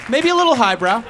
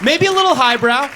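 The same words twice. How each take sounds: First: Said in the usual way. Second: High take. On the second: Shown as a demonstration.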